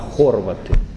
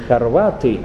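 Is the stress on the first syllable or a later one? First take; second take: first; later. First: The stress falls on the first syllable. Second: The stress falls on a later syllable. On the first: The speaker calls it right. "Правильнее ударять на первый слог" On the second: The speaker calls it wrong. "не хорваты"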